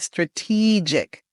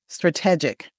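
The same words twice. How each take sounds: First: The second syllable has a long E vowel. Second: The second syllable has a short E vowel. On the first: The speaker calls it right. "make sure you make that long E sound" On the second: The speaker calls it wrong. "some students make the short E sound in this word"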